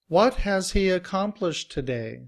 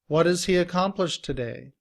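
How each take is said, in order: First: What has is said fully with a clear h. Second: What has is blended, sounding like wadiz.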